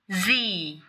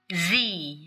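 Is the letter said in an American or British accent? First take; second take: American; American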